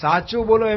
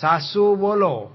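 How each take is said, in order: First: The first word has a 'ch' sound in the middle. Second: The first word has an 's' sound in the middle. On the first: The speaker calls it right. "સાચું બોલો એમ બોલવું જોઈએ ને" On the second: The speaker calls it wrong. "અમારે કાઠિયાવાડમાં ચ ને શબ્દ ભેગું થઈ જાય"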